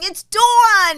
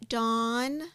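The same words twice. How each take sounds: First: Loud, high New York DAWN; New York accent. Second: Careful DAWN, softer, accent suppressed; accent held back. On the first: Acted. Giving up correcting them, loud New York accent. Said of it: "I end up saying". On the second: Shown as a demonstration. Giving her name to others, carefully unaccented. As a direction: say DAWN trying to hide a New York accent. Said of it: "I always try not to have the accent".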